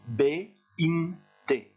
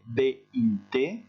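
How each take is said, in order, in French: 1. Les syllabes sont prononcées lentement et séparément. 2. Les syllabes sont enchaînées à une vitesse plus rapide. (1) "vous faites B-in-te" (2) "après vous accélérez"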